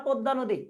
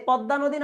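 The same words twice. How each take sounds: First: পদ্মা as "podda", close o; close o sound. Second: পদ্মা as "pɔdda", open ɔ; open o sound. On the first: Teacher giving the alternative river name, পদ্মা with close o. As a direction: say পদ্মা with a rounded first vowel. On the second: Teacher asking students about the river, পদ্মা with open ɔ. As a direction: say পদ্মা with a wide first vowel. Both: Shown as a demonstration. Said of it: "পদ্মা, অধ্বনি হচ্ছে".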